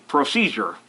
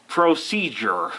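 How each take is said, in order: First: Said in the usual way. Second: Procedure said slowly, each syllable clear; slow down and get procedure right; carefully enunciated procedure; careful correction. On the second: Shown as a demonstration. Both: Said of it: "I can't talk".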